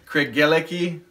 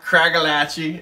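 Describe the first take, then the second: First: The name is said with a non-American pronunciation. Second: The name is said with an American pronunciation. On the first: The speaker calls it right. "but Craigellachie thirteen" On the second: The speaker calls it wrong. "Not Craigellachie, as a lot of Americans say"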